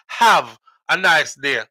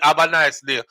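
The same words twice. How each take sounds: First: The first word starts with an h sound. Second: The first word starts without an h sound. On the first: "not have a nice day" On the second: "A V E"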